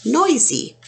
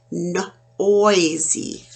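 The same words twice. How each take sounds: First: "noisy" lifted high, oi stressed; higher noisy. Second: Said in the usual way. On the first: Shown as a demonstration. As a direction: pitch "noisy" up brightly. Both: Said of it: "So again".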